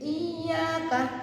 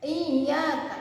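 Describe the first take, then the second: First: The y sound is doubled and held. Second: The same.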